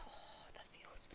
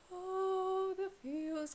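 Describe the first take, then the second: First: Hushed breathless whisper of the feels. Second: Said in the usual way. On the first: Real, not acted. Fan overwhelmed by everyone calling out, whispering. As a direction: whisper it, overcome. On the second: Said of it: "and it's, oh, the feels".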